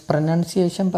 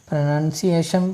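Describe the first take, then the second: Both takes have the same delivery.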